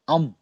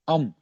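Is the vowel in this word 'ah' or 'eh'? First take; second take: ah; ah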